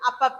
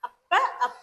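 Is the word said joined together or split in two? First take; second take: joined; split. First: It is said as one joined word. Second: It is said as two separate parts. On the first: "சேர்த்து சொல்லணும்னா" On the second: "பிரிச்சு சொல்லணும்னா"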